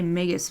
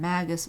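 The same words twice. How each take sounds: First: The start does not sound like magic. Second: The start sounds like the word magic. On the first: "I always say Magus" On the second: "could be Magus because magic"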